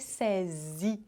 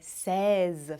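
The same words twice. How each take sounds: First: The word ends with an added 'ee' vowel. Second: The word ends with a plain 'z' sound. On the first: The speaker calls it wrong. "Não é seize, que não é para ter som de I no final" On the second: The speaker calls it right. "é seize, fazendo o som de Z no final"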